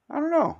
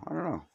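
First: I don't know squeaked very high; high squeaky take. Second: Said in the usual way. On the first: Pretend. Repeated, first pitched up.

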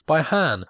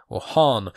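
First: "Han" said high and quick, like "Hahn"; "Han" pitched up as a first guess; first pronunciation of Han. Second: "Han" as the fixed version; corrected pronunciation of Han. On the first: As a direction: try "Han" with a raised, open vowel. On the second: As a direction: land "Han" down in the normal voice. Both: Shown as a demonstration.

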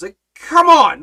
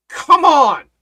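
First: Loud scolding come on, quicker; a sharp spiritual smack: come on!; exasperated call-out. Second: Loud, drawn-out come on, scolding; exasperated call-out. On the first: Lord scolding, repeated. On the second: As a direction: shake them awake: come on!. Lord scolding disciples. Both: Acted.

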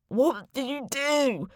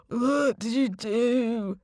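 First: Slow, high, wavering dead man's voice; a dead man accusing the narrator, slow and warbling; ghostly warble. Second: Slow, whimpering chorus of severed heads; severed heads reproach the narrator in a slow whimper; ghostly whimper. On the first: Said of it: "he warbled at me". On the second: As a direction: whimper it slowly like a pitiful ghost. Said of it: "they whimpered in chorus". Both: A narrator's reading.

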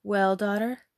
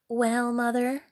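First: Louder, expectant question; eager cry. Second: Pert, rising comeback; rude reply. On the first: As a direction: call out, keen to hear the news. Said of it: "she cried out". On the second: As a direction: throw the question back rudely. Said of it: "replied the rude girl". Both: Acted.

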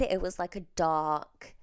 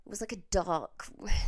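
First: Said in the usual way. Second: Hushed correction; a small whispered "a dark red". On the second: Shown as a demonstration. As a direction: whisper it like a confession.

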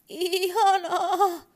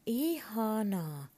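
First: Very high, very loud, slow horse cry; terrified toy horse whinnying wildly, high and loud. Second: Slow, higher little horse voice, shy; a timid toy horse saying its name; a shy pony drawing out its own name, slow and high. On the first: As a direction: scream the word like a frightened horse. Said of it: "hevonen hirnui hurjalla äänellä". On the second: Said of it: "sanoi hevonen ujosti". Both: Acted.

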